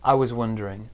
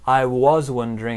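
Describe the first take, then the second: First: The word 'was' has a reduced weak vowel. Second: The word 'was' has a full vowel. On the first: The speaker calls it right. "there's definitely a was sound there" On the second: The speaker calls it wrong. "It's not"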